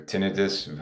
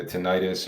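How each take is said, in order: First: Tinnitus as TIN-i-tus; alternative pronunciation. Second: Tinnitus as ti-NIGH-tus; variant pronunciation. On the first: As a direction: say tinnitus with stress up front and short i, TIN-i-tus. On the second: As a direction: say tinnitus with a long i in the stressed middle, ti-NIGH-tus. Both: Shown as a demonstration. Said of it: "however you pronounce it".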